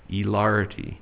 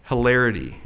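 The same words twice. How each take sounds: First: The word is said in an affected accent. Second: The word is said in a plain accent.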